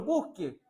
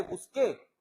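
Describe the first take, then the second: First: "busque" stressed on BUS, unaccented final e; stress on first syllable. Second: "busqué" with the stress on the last syllable; stress on final É. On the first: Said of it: "Le dice, "Señor, busque". ("busque" con acento en la primera sílaba) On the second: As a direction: say "busqué", landing on the É. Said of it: "no dice con acento en la E". ("busqué" con acento en la última sílaba) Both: Shown as a demonstration.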